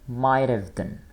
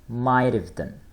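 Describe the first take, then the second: The two takes are said the same way.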